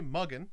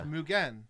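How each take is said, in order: First: The first vowel sounds like 'uh'. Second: The first vowel sounds like 'oo'. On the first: The speaker calls it wrong. "Don't say muggin" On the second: The speaker calls it right. "U makes U, mu. E makes eh, so it's"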